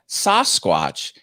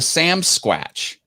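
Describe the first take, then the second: First: The first part is said as 'Sas'. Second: The first part is said as 'Sam'. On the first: This is the usual name. "he didn't call it Sasquatch" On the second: This is how some Canadians say it. "He called it Sam Squatch"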